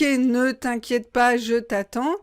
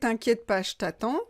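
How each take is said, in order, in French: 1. Le 'ne' est entièrement prononcé. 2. Le 'ne' est complètement supprimé.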